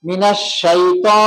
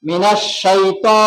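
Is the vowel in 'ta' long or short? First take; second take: short; short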